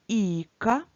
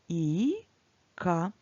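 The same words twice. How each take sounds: First: It is read a little faster. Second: It is read slowly, syllable by syllable.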